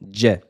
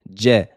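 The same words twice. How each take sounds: No difference in how they are said.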